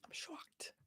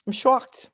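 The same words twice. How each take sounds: First: Whispered mock shock; whispered sarcastic shock. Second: Higher, voiced, sarcastic; a touch of hammed-up shock; mock shock. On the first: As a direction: breathe it out, barely audible. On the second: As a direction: lift I'm shocked up in fake surprise.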